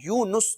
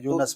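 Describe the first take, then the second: First: The second syllable has a 'u' vowel. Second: The second syllable has an 'a' vowel. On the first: The speaker calls it right. "यूनुस दुरुस्त तलफ्फुज है" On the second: The speaker calls it wrong. "बाद लोग इसको यूनस पढ़ते हैं"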